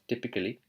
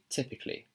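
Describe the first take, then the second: First: It is said in an Indian accent. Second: It is said in a British accent. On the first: "So she's pronouncing it as typically" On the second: "the British accent would be typically"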